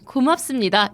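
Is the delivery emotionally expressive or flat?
expressive. It is said with exaggerated warm emotion. The speaker calls it wrong. "뉴스에서 그렇게 하지 않잖아요"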